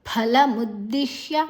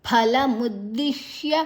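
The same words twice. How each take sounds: Both takes have the same delivery.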